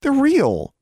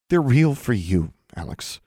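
First: High, loud, forceful insistence; emphatic insistence. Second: Higher, measured, drawn-out words; slow and deliberate. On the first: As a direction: insist hard against a friend. Girl insisting against friend. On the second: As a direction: spell it out slowly to a friend. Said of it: "slowly and deliberately". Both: A narrator's reading.

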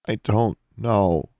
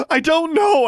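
First: Slow, strained, higher voice; thick-voiced reply. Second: Very high, anguished shout. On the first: Girl asked where she was, replying thickly. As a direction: drag each word out past a lump in the throat. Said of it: "Alexandra replied thickly". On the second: Girl driven to breaking by questioning, shouted. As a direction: yell it at the top of your voice. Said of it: "Alexandra shouted". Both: A narrator's reading.

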